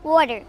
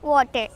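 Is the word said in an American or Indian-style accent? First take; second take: American; Indian-style. First: It is said in an American English accent. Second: It is said in an Indian-style English accent. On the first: This is how it is said after the training. The speaker calls it right. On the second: This is how it was said before the training. The speaker calls it wrong.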